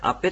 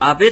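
First: The middle consonant is voiceless, like p. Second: The middle consonant is voiced, like b. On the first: "アペと、発音します。" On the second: "濁って発音されるときも時々ありますが"

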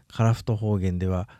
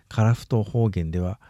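No difference in how they are said.

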